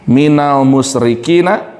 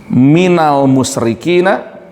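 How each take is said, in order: The two takes are said the same way.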